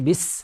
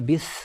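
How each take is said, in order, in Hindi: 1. "स" की आवाज़ तेज़, सीटी जैसी होती है। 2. "स" में जीभ दाँतों के बीच रखकर लिस्प किया जाता है। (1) "बिस्मिल्लाह में सीन है, तो ये बिस" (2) "बिस ऐसे नहीं पढ़ सकते"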